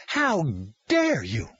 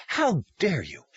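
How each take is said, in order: First: Angrier outrage. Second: Indignant, higher pitched demand; outraged. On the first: Caseworker repeats her accusation, higher and angrier. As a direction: escalate the accusation, leaning on HOW. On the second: Caseworker confronts Tom, indignant. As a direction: throw the accusation at him. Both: Acted.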